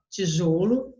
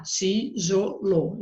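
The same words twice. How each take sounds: First: Said in the usual way. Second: TIJOLO slowly split as ti, jo, lo; syllable by syllable. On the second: Shown as a demonstration. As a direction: pause after each syllable of tijolo. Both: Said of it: "Você vai separar lá".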